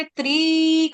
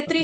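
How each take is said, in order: First: त्रि stretched out as treee; wrongly long vowel. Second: त्रि with a quick short i; short vowel. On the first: Retold or imitated. Teacher showing a student her slip, त्रि with long ee. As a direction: hold the i of त्रि far too long. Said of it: "त्रि आपने दीर्घ कर दी". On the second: Shown as a demonstration. Teacher correcting the student, त्रि with short i. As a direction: keep the i of त्रि brief, as in त्रिदेव. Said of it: "ये त्रि छोटे वाला त्रिदेव".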